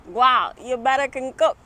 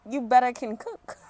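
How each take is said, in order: First: Loud Jamaican granny voice; Jamaican accent. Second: Put-on first try at a Jamaican accent. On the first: Acted. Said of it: "channel my Jamaican accent". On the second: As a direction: try the Jamaican granny line. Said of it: "I need a Jamaican accent for this".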